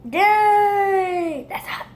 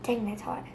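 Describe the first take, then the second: First: Loud high yelp on dang; pained yelp. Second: Said in the usual way. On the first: Real, not acted. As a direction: cry out at the heat. Repeated with loud high cry.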